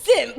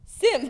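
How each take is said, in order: First: It is said loudly. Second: It is said quietly.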